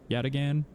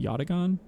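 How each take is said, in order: First: The A vowels sound English-style. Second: The A vowels sound like Japanese A. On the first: The speaker calls it wrong. "I've been pronouncing it Yataghan this whole time" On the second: The speaker calls it right. "it's probably like the Japanese A sound"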